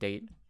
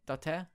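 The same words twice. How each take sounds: First: It is said as one syllable, like 'date'. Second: It is said as two syllables, dah-teh. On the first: The speaker calls it wrong. "spelled like you know we would read it date" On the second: The speaker calls it right. "I think that's how you pronounce it"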